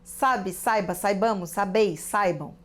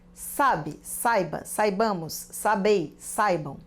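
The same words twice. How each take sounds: First: It is read faster. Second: It is read at a normal pace.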